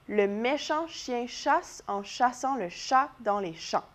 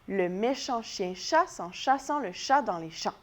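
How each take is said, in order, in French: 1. La phrase est dite à un rythme lent. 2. La phrase est dite à un rythme rapide. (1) "On l'essaye ensemble cette fois-ci?" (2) "On va l'essayer un petit peu plus vite"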